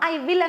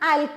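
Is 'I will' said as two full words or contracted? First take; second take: full; contracted. First: Both words are said fully and separately. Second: The words are contracted into one short syllable. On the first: The speaker calls it wrong. "ఐ విల్ అనట్లేదు" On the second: The speaker calls it right. "Try to pronounce this way"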